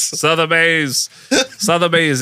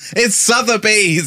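First: Sotheby's stretched slow and high, SUH-ther-bayz in broad American; owning his American accent, drawn out; exaggerated American accent. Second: It's Sotheby's drawn out high and slow, SUH-thuh-bayz; mock-correct Sotheby's, slow and high; teasing correction of Sotheby's; exaggerated Sotheby's. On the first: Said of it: "It's my American accent". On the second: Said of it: "my American accent". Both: Shown as a demonstration.

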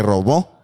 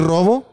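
First: "robó" stressed on the last syllable; acento en BÓ. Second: "robo" stressed on the first syllable; acento en RO. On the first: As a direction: say "robó" as ro-BÓ, past tense. ("robó" con la fuerza en la última sílaba) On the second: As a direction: say "robo" as RO-bo, present tense. ("robo" con la fuerza en la primera sílaba) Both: Shown as a demonstration. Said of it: "Son cosas diferentes".

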